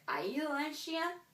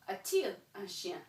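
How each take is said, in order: First: The vowels of 'a' and 'il' run together. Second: A 't' sound separates 'a' from 'il'. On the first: The speaker calls it wrong. "that doesn't sound French. It sounds really weird" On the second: The speaker calls it right. "that T chops it up"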